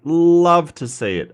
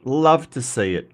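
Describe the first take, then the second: First: Love leaned on, louder and slower; emphatic repeat. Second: Said in the usual way. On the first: Acted. Streamer cheering a viewer's emotes, stressing Love. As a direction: punch Love with a drawn-out fall.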